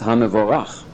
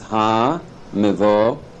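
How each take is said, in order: First: The word is said smoothly as one unit. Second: The word is split with a break between syllables.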